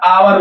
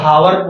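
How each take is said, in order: First: The word starts with a vowel sound. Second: The word starts with an h sound. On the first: The speaker calls it right. "आवर बोला जाता है" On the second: The speaker calls it wrong. "वो से इसको हावर बोलते हैं, लेकिन it is not speak हावर"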